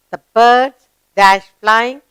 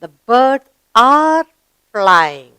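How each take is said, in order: First: Slow, deliberate reading that leaves a gap for the verb; slow gapped reading. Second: Slow, deliberate reading with "are" filled in; slow model reading. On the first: Teacher reads the gapped sentence slowly to pupils. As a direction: read it slowly and pause at the blank. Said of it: "let's read the sentence". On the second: Teacher models the corrected sentence slowly for pupils. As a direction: read it slowly and lean on "are". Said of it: "So we write here". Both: Shown as a demonstration.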